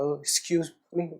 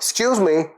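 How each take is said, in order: First: It is mumbled hesitantly and timidly. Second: It is said firmly and assertively.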